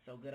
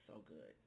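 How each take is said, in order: First: Said in the usual way. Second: Low, hushed, savoring so good; dreamy murmured praise. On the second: Real, not acted. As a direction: murmur it like a tasty bite. Savoring the herbed mozzarella.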